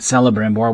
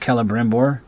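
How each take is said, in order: First: The name begins with a soft S sound. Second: The name begins with a hard K sound. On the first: The speaker calls it wrong. "not Celebrimbor, which is how I used to pronounce it when I was a kid" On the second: The speaker calls it right. "C always has the sound of K in kin"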